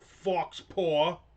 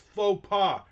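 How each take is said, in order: First: It sounds like 'fox paw', with an x sound. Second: It sounds like 'foe pah', with no x sound. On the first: The speaker calls it wrong. "not fox paw" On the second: The speaker calls it right. "In any language, it's faux pas"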